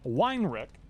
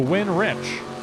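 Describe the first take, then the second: First: The first syllable sounds like 'whine'. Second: The first syllable sounds like 'win'. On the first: The speaker calls it wrong. "We were calling him Weinrich" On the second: The speaker calls it right. "he wants to win rich"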